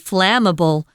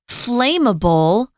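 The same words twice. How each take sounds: First: The first vowel is a short A sound. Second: The first vowel is a long A sound. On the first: The speaker calls it right. "It's the uh, short A" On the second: The speaker calls it wrong. "we don't say"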